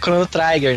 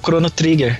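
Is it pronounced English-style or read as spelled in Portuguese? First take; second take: English-style; as spelled. First: The name is said with English-style sounds. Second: The name is read as spelled, Portuguese-style. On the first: The speaker calls it wrong. "Por causa da pronúncia e tal" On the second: The speaker calls it right. "lia literalmente que tava escrito"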